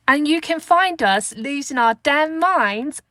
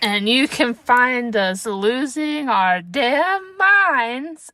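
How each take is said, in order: First: It is said in a put-on British accent. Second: It is said in the speaker's ordinary accent.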